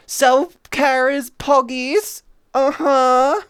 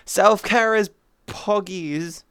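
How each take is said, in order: First: Louder, higher and slow, Self-care stretched out; Self-care is poggies! cheered with a rising end; excited cheer. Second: Said in the usual way. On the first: Shown as a demonstration. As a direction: shout it as a happy slogan. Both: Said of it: "repeated louder".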